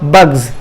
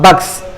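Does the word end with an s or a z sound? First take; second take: z; s. First: The final sound is a buzzing z. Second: The final sound is a hissing s. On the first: The speaker calls it right. "then the sound becomes za" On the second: The speaker calls it wrong.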